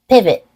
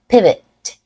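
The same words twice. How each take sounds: First: The final T is stopped without release. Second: The final T is fully released. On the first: "Now I'll say it with a stop T" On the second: "I will say it with a true T"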